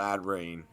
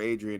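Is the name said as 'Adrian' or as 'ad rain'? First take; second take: ad rain; Adrian. First: It sounds like two parts, ad and rain. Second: It sounds like the common name Adrian. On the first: The speaker calls it right. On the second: The speaker calls it wrong.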